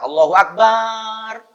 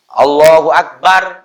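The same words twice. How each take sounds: First: The vowel in Akbar is stretched long. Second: The vowel in Akbar is kept short. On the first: God is a drum. The speaker calls it wrong. "kendang. Allah kendang. Kan bahaya" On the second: God is the greatest. The speaker calls it right. "Allah Maha Besar"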